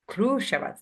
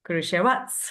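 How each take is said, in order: First: The stress falls on the first syllable. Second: The stress falls on a later syllable. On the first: The speaker calls it right. "like U is the stressed" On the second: The speaker calls it wrong. "it felt like an English, like accent thing"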